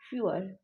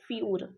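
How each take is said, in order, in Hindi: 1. इसमें दूसरा स्वर बोला जाता है। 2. इसमें दूसरा स्वर नहीं बोला जाता। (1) "हल्का सा यहाँ पे वॉवल भी आ रहा है" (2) "इसको फ्यूअर नहीं पढ़ेंगे, फ्यूर पढ़ेंगे।"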